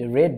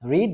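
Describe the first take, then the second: First: The vowel is short, like in 'red'. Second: The vowel is long, like in 'reed'. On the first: The speaker calls it right. "রেড হবে" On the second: The speaker calls it wrong. "রেড উচ্চারণটা রিড হবে না"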